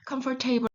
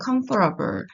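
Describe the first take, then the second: First: The ending is said fully as the word 'table'. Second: The ending is reduced, without a full 'table' sound. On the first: The speaker calls it wrong. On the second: The speaker calls it right.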